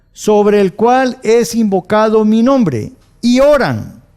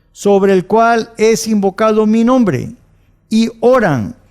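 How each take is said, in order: The two takes are said the same way.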